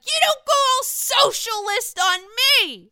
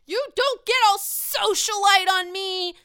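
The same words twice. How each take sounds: First: Higher, louder mock drunken retort; drunk Sonia yelling back. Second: High, loud mock drunken yell; drunk Leah yelling. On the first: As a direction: fire it right back at her, even louder. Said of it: "she's like". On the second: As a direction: throw it at her like a tipsy socialite. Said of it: "Leah says".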